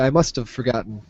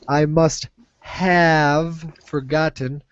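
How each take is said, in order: First: The word have is reduced to sound like of. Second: The word have is said fully and clearly. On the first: "when we say it really quickly, it often sounds like of" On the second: "instead of saying"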